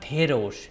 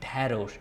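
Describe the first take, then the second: First: The first vowel is an 'e' sound. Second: The first vowel is an 'a' sound. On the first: The speaker calls it wrong. "It's not" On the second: The speaker calls it right. "Sometimes the ekar is pronounced a"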